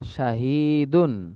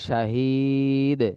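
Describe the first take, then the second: First: The word ends with a full 'un' ending. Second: The word stops bare on its final consonant. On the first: The reading continues without stopping. "স্বাভাবিক উচ্চারণটা হলো" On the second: The reader stops at this word. "অক্ফের অবস্থায়"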